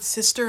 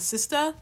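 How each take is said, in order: First: The word ends with an r-colored 'er' sound. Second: The word ends with an open 'ah' sound. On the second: "With an A or an A-H at the end"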